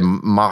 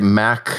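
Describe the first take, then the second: First: The word is said with a German accent. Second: The word is said with a British accent. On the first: "as the Germans would say" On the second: "the Brits would say"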